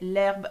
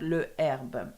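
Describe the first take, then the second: First: The article's vowel is dropped and joined on. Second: The article keeps its vowel before the noun. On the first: The speaker calls it right. "we say l'herbe" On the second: The speaker calls it wrong. "and not le herbe"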